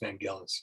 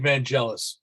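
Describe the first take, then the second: First: The name has its original, non-American pronunciation. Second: The name has its usual American pronunciation. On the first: The speaker calls it right. "but apparently it's Vangelis" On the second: The speaker calls it wrong. "Americans say Vangelis"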